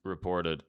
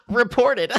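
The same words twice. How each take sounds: First: Said in the usual way. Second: Loud, high-pitched silly voice; high mock outrage, breaking into laughter; mocking chatter. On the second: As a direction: parody an offended viewer in falsetto. Mocks the chat message read earlier.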